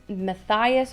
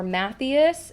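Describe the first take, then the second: First: Matthias as muh-THIGH-us; long-i pronunciation. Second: Matthias as MATH-ee-us; ee-sound pronunciation. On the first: Reader unsure of the mouse's name, Matthias said muh-THIGH-us. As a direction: stress the middle of Matthias, rhyming it with eye. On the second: Reader offering the other name option, Matthias said MATH-ee-us. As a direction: stress the first syllable of Matthias, then an ee. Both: Shown as a demonstration. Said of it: "Sorry if I'm getting his name wrong".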